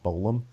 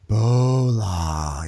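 First: "Bolam" short, with a closing m; "Bolam" said briefly as a misprinted name; subtitle misreading. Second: "Bola" stretched long, open final vowel; "Bola" said slowly, ending on a long ah; drawn-out name. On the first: Shown as a demonstration. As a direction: close "Bolam" on an m, tune rising. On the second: Retold or imitated. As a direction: linger dreamily over both syllables of "Bola". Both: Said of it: "the subtitles kept on saying Bolam".

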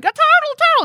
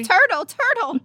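First: Put-on high squealing child's shout; excited little kid. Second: Put-on excited little kid. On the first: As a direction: squeal it like a thrilled toddler. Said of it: "a little kid can be like". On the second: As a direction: echo the toddler's squeal. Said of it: "echoing the kid line".

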